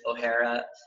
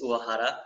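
First: The name is pronounced like Irish O'Hara. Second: The name is pronounced the Japanese way. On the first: "blend it with an Irish pronunciation" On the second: "the true Japanese way of saying it"

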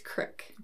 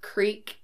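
First: The vowel is a short 'i' sound. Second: The vowel is a long 'ee' sound. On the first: "it's crick" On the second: "if you say, like, creek"

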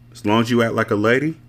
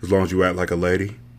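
First: The line is read in an ordinary voice. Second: The line is read in a put-on deep voice.

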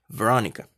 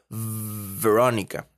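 First: The v is light and quick, less emphasized. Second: The v is strongly held with lip on teeth. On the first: "no va a sonar tan exagerado" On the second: "Aunque suene exagerado"

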